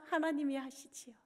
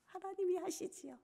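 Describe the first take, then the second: First: Said in the usual way. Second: Softer, breathy whispered repeat; whispered echo. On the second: Acted. Pastor surrenders to God in a whisper. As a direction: let it fall to a hushed whisper.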